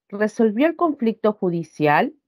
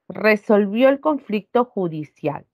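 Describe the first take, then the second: First: The pitch rises at the end. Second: The pitch falls at the end. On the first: It asks a question. "Y cambia la forma de pronunciar" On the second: It states a fact. "Esta oración tiene un tono descendente. ... Cae"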